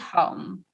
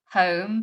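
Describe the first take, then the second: First: The name is said with a Scandinavian pronunciation. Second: The name is said with a British pronunciation. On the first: "if it was the Scandi way" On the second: "if you were pronouncing it the British way"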